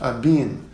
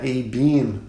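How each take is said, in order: First: The first vowel is said open. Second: The first vowel is not said open. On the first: The speaker calls it right. "O A ele é aberto" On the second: The speaker calls it wrong. "não é a-beam, como eu já escutei falando"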